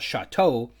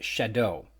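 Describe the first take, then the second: First: The word is said with a French-style pronunciation. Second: The word is said like the English word shadow. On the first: The speaker calls it wrong. "incorrectly pronouncing ... like some sort of francophony" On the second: The speaker calls it right. "it's actually pronounced Shadow"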